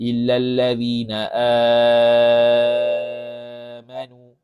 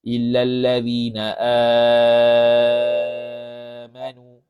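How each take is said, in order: First: The long vowel in amanu is held very long. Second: The same.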